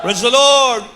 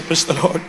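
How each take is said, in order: First: Higher, louder praise shout; rousing call. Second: Said in the usual way. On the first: Real, not acted. Preacher leading the congregation in praise, rousing call. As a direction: call out praise with a lift on LORD.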